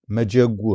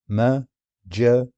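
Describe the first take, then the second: First: Said in the usual way. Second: مجج stretched very slowly; slow syllables. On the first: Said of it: "slow syllable demo". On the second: Shown as a demonstration. Teacher splitting مجج into syllables, slowly. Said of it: "syllables drawn out".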